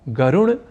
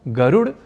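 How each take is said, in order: First: The final consonant is a retroflex nasal. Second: The final consonant is a retroflex flap. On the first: "ड को ड़ या ण इस रूप में बोलना और लिख जाना है अशुद्ध" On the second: "ड को ड़ या ण इस रूप में बोलना और लिख जाना है अशुद्ध"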